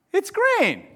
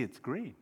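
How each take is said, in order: First: High-pitched acted insistence; insistent retort. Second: Very soft, lower admission; hushed concession. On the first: Friend arguing over a card colour, insistent retort. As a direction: argue back, pitch jumping up. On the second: Acted. Friend seeing the other's view, hushed concession. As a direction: concede it quietly, with wonder.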